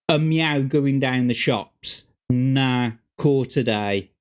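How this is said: It is said in a Black Country accent. "They'll say something along the lines of"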